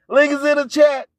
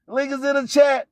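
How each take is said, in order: Both takes have the same delivery.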